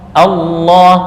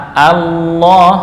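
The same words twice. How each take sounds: The two takes are said the same way.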